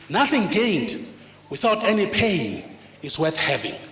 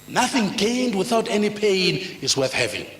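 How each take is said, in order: First: It is said slowly and deliberately. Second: It is said at normal speed.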